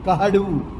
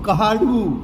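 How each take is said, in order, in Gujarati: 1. પહેલા ઉચ્ચારણ પછી h અવાજ આવે છે. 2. પહેલા ઉચ્ચારણ પછી h અવાજ આવે છે.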